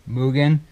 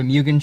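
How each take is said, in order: First: "Mugen" said MOO-gen, no y-glide; corrected Mugen pronunciation. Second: "Mugen" said MYOO-gen, with a y-glide; mispronounced Mugen. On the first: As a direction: say "Mugen" as MOO-gun, plain oo. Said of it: "Apparently it's pronounced Mugen". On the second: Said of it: "corrected in the last video for saying it wrong". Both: Real, not acted.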